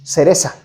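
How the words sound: It is said in a Mexican Spanish accent. "the way I say it, which is cereza"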